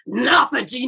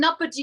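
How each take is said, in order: First: It is said in a deep, slow, menacing voice. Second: It is said in a plain, ordinary voice. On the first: "with a deep, drawn out, intimidating tone" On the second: "I say"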